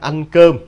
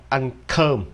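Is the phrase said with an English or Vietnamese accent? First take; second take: Vietnamese; English. First: The phrase is said with a Vietnamese accent. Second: The phrase is said with an English accent. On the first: "Mình nói là ăn cơm" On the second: "Nếu đọc theo giọng Anh là ăn cơm"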